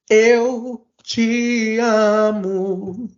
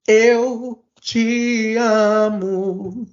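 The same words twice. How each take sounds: First: The voice is deep and low. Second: The same.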